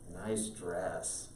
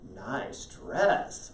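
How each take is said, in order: First: It sounds sarcastic and disapproving. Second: It sounds sincere and approving.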